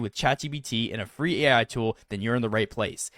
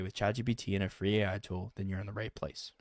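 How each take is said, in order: First: It is said with lively, enthusiastic energy. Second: It is said in a flat, bored way. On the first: The speaker calls it right. "you can say it with some enthusiasm" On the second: The speaker calls it wrong. "Do you see how boring that is"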